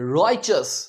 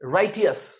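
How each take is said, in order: First: The middle consonant is a ch sound. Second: The middle consonant is a plain t sound. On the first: The speaker calls it right. "यहां पर ये जो टी है, इसे हम च की आवाज देंगे" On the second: The speaker calls it wrong. "राइटियस लगता है ना देखने में, पर ये गलत है"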